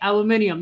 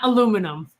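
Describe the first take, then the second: First: The word ends with an extra '-nium' syllable. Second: The word ends with a shorter '-num' ending. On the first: The speaker calls it right. "That's how you should say it" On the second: The speaker calls it wrong. "not aluminum"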